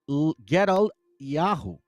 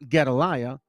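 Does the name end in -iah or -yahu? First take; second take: -yahu; -iah. First: The name ends with a separate -yahu sound. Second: The name ends with a short -iah sound. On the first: The speaker calls it right. "it's Get Gedal Gedal Yahu" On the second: The speaker calls it wrong. "it's not Gedaliah"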